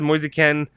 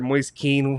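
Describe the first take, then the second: First: The surname has a short vowel, like 'ken'. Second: The surname has a long vowel, like 'keen'. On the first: This is the version a reporter uses. "he says Moise Ken" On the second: This is the version others use. "I've heard Moise Keane"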